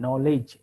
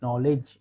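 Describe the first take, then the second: The two takes are said the same way.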